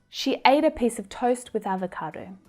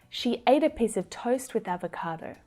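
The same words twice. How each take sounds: The two takes are said the same way.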